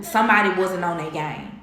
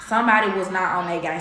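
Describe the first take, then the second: First: Said in the usual way. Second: "not" set apart in full, said firmly; stress on "not". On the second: Real, not acted. Vlogger repeating her point about a partner, "not" stressed. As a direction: lean on "was not" to drive it home.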